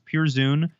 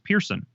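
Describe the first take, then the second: First: The name ends with a 'zoon' sound. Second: The name ends with a 'son' sound. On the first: Others say the name this way. "I've heard it pronounced Pearzoon" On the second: The speaker instinctively says the name this way. "I'm pronouncing it as Pearson"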